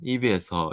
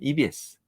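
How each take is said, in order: First: The last syllable ends in an 'eo' vowel. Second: The last syllable ends in an 'eu' vowel. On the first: The speaker calls it wrong. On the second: The speaker calls it right.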